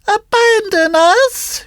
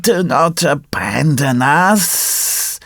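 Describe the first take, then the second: First: Very high, slow cat echo. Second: Very slow, drawn-out, wailing plea; pitiful plea. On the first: Acted. Cat repeats the fox's plea, high echoing voice. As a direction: pipe the echo in a high, drawn-out voice. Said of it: "repeated the cat". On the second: A narrator's reading. Old fox begs the puppet to stay, pitiful. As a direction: drag out every word, begging.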